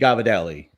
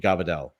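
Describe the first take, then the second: First: The word is said in full. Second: The word is muttered with its ending clipped. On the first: The speaker calls it right. "it would really be gavadelli" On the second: The speaker calls it wrong. "we mutter it like Sicilians"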